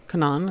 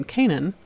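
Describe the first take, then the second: First: Canaan said the other way, kuh-NAHN; alternative pronunciation. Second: Canaan said the common English way, KAY-nun; first pronunciation. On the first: Narrator offering viewers another option, alternative pronunciation of Canaan, kuh-NAHN. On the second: Narrator naming the land the tribes settled, first pronunciation of Canaan, KAY-nun. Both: Shown as a demonstration. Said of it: "however you want to pronounce it".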